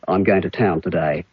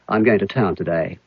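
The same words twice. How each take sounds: First: Vowels sound lazy and dull, a broad accent. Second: Vowels fall halfway between clear and broad. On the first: "In broad Australian, it could be" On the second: "a middle Australian, halfway between those"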